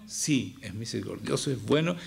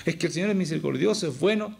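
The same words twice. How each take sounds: First: Lower, measured concession; calm admission before a rebuttal; conceding. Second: Higher, quicker objection; imagined objector's protest; objecting. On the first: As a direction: grant the point, voice dropping. Concedes the objection he voiced. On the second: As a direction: put it forward as an excuse, pitch lifting at the end. Voices a listener's objection, then concedes. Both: Acted.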